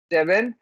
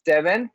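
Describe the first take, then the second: No difference in how they are said.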